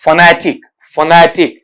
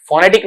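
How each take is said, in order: First: फनेटिक said "fuh-NET-ik"; फनेटिक with a schwa start, said firmly; correct weak vowel. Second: फोनेटिक with a full "fo"; फोनेटिक beginning "fo-"; wrong first vowel. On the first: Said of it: "इस तरीके से बोला जाएगा". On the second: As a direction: say फोनेटिक with a rounded o at the start. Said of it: "फोनेटिक नहीं बल्कि". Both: Shown as a demonstration.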